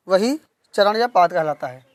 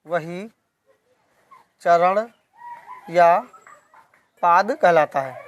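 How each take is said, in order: First: Said in the usual way. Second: Slow, with a long pause after each word; dictation pace. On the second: Shown as a demonstration. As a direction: dictate it for students writing it down. (धीरे-धीरे, शब्द-शब्द लिखवाते हुए)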